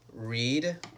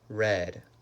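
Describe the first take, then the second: First: The vowel is long, like in 'reed'. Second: The vowel is short, like in 'red'. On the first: It is the present tense. "these words we write them the same, but we pronounce them different" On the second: It is the past tense. "these words we write them the same, but we pronounce them different"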